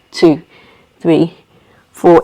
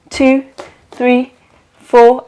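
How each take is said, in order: First: Low, evenly spaced count; exhale count. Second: Raised, evenly spaced count; inhale count. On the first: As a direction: drop the pitch to count the breath out. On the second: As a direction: count the breath in on a lifted pitch, with gaps. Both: Shown as a demonstration.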